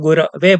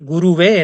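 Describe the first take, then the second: First: The second syllable is said as ra. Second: The second syllable is said as ru. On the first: The speaker calls it right. "चतुर्थी विभक्ति में गुरवे बनता है" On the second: The speaker calls it wrong. "ऐसा बोलते हैं"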